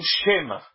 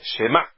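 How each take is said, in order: First: The stress is on the first syllable. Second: The stress is on the last syllable. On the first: The speaker calls it wrong. "E não Shema" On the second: The speaker calls it right. "É Shema. / Ela é milerá"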